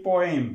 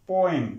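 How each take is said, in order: No difference in how they are said.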